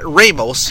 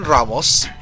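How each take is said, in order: First: The name is said with an American pronunciation. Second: The name is said with its native pronunciation. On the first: The speaker calls it wrong. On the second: The speaker calls it right.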